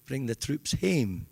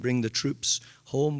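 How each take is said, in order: First: The last word has the vowel of 'game'. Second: The last word has the vowel of 'comb'. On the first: "we say bring the troops hame" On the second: "we don't say bring the troops home"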